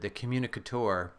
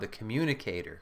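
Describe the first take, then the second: First: It is said in a fancy, academic-sounding way. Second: It is said in a plain, ordinary way.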